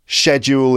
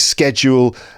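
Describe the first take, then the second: First: It is said with a British pronunciation. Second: It is said with an American pronunciation.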